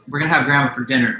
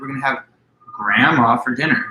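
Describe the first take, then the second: First: The word grandma carries no special stress. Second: The word grandma carries strong stress. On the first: Grandma is a guest at dinner. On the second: Grandma is the food to be eaten.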